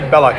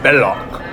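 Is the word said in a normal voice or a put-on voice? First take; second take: normal; put-on. First: It is said plainly, in a normal voice. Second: It is said in a theatrical put-on voice. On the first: The speaker calls it wrong. "You don't say Belloc" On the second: The speaker calls it right. "you gotta say it like Ian McKellen. ... You go Belloc"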